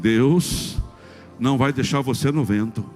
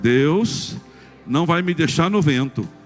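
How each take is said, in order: First: It is said at normal loudness. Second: It is said louder and more forcefully.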